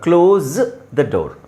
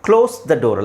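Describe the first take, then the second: First: 'Close' ends with a z sound. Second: 'Close' ends with an s sound. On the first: The speaker calls it right. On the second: The speaker calls it wrong.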